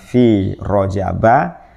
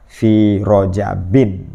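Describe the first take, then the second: First: The word ends in a short 'a' sound. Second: The word ends in an 'in' sound. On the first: It refers to this year's Rajab specifically. "Kalau yang rojaba tadi berarti meniatkannya satu rojab tahun ini" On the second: It refers to Rajab in general, not a specific year. "yang paling kuat adalah fi rojabin"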